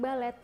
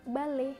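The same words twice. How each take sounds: First: The final consonant is pronounced. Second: The final consonant is not pronounced. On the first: The speaker calls it wrong. "bukan ballet" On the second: The speaker calls it right. "konsonan di belakang itu nggak dibaca. Jadi cuma ballet"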